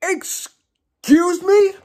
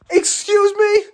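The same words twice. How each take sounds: First: High, very slow incredulous question; slow-motion shocked squeal; incredulous, drawn out. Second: High, loud incredulous outburst; high-pitched disbelief. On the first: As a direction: stretch each word in high disbelief. Repeats stunned reaction, stretched out. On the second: Stunned reaction to game scene. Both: Real, not acted.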